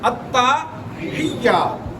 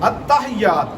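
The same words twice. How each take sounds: First: The y sound is held and doubled. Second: The y sound is short and single. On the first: The speaker calls it right. "या मुशद्दद है, ता साकिन नहीं है।" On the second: The speaker calls it wrong. "हम लोग अक्सर गलती करते हैं"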